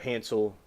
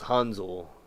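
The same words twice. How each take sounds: First: The middle consonant is a hissing s sound. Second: The middle consonant is a buzzing z sound. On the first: This is the common American way of saying it. The speaker calls it wrong. "as a lot of people pronounce it in America" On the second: This is the way the name is meant to be said. The speaker calls it right. "pronounced Hansel with like a with a Z sound"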